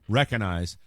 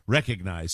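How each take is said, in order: First: The g sound in the middle is dropped. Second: The g sound in the middle is pronounced. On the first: The speaker calls it wrong. "It is not recognize" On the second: The speaker calls it right. "If you're going to pronounce the word correctly, you say recognize"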